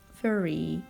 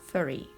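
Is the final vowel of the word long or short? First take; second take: long; short. First: The final vowel is a long, tense ee. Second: The final vowel is a short, lax i. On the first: "South African says furry" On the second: "instead of furry"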